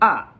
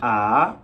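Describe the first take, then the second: First: The pitch falls sharply from high to low. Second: The pitch rises from mid to high. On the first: "and there's the fourth tone" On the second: "there's the second tone"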